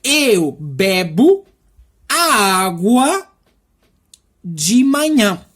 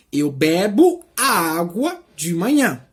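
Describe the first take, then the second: First: Very slow, word by word; slow teaching read; slow translation. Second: Said in the usual way. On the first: Shown as a demonstration. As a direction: spell it out slowly for learners. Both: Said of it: "Seria praticamente".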